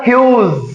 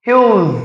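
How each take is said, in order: No difference in how they are said.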